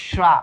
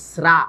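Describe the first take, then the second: First: শ্রা with a hushing sh, "shra"; wrong sh sound. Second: শ্রা with a sharp s, "sra"; s-like sound. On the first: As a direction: start শ্রা on sh instead of s. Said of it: "not শ্রা". ("শ"-ধ্বনিতে ভুল "শ্রা") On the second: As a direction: start শ্রা on a hissed s. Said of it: "দেখো, এস এর মতো". ("স"-ধ্বনিতে "স্রা") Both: Shown as a demonstration.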